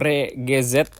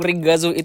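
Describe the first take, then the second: First: The name ends with a 'zet' sound. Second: The name ends with a 'zui' sound. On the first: The speaker calls it wrong. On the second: The speaker calls it right.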